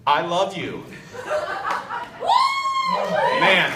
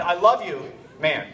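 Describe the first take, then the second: First: "I love you", long pause, then a loud "Man"; held-back "man". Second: Quick, offhand "I love you, man"; casual affection. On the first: Shown as a demonstration. Challenging himself before an old family friend, held-back "man". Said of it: "see if I can do this". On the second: Retold or imitated. Dad putting his seven-year-old son to bed, casual affection. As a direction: tack "man" straight onto the affection. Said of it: "I'm putting him to bed".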